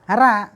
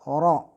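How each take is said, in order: First: The r is light, with a bright vowel. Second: The r is heavy, with a dark vowel. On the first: "tipisnya gimana? Ara" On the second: "tebal oro"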